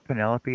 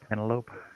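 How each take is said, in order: First: The ending does not rhyme with antelope. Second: The ending rhymes with antelope.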